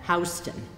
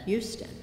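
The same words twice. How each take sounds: First: The name is pronounced the Delaware way. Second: The name is pronounced the Texas way. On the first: The speaker is from Delaware. "if you come from Delaware, you pronounce that Houston" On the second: The speaker is from Texas. "if you come from Texas, you pronounce that Houston"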